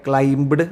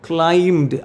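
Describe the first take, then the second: First: A b sound is pronounced before the d. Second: No b sound is pronounced before the d. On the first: The speaker calls it wrong. "അത് തെറ്റാണ്" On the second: The speaker calls it right. "ആ ബി silent ആണ്"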